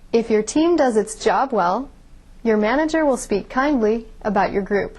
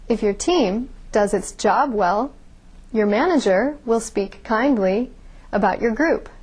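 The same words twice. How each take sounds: First: Three pauses fall between the word groups. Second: Five pauses fall between the word groups. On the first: "You could read that sentence with only three pauses" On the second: "I had five pauses in that sentence"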